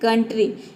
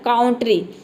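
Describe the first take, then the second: First: The first vowel is 'uh' as in cup. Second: The first vowel is 'ow' as in cow. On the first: The speaker calls it right. "इसको बोलते हैं कंट्री" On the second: The speaker calls it wrong. "अगर हम यहाँ पे आव pronounce करते तो इसका प्रोनाउंसिएशन हो जाता है काउंट्री"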